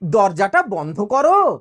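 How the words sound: It is said in a polite tone. It is a request. "ঠিক ওই কথাটাই বলছি দেখো পোলাইটলি"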